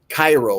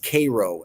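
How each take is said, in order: First: It is pronounced the way the Egyptian city is. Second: It is pronounced the local Illinois town way. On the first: The speaker calls it wrong. "they don't like when people say Cairo, like Egypt" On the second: The speaker calls it right. "It's Cairo, Illinois"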